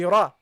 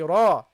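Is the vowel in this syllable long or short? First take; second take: short; long. First: The vowel is short and clipped. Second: The vowel is long and drawn out. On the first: The speaker calls it wrong. "Without the Alif" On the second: The speaker calls it right. "But with the Alif, ... you have to prolong it"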